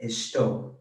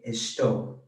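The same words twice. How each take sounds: First: The s is said like English sh. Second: The same.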